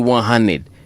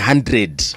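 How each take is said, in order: First: The word hundred is clipped to hunnid. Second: The word hundred is said in full. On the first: The speaker calls it right. "You say one hundred. This is street slang" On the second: The speaker calls it wrong. "you don't say one hundred"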